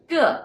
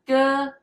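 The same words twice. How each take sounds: First: The pitch falls from high to low. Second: The pitch stays high and level. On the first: It means every. "The fourth one, ge, is every" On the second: It means brother. "the first one, ge, it's brother"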